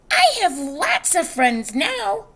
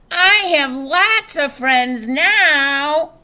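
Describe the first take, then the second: First: It is said at normal, soft volume. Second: It is said very loudly.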